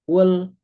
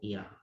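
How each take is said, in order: First: The syllable begins with a u vowel. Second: The syllable begins with an i vowel. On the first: "nggak mungkin ul atau il" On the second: "nggak mungkin ul atau il"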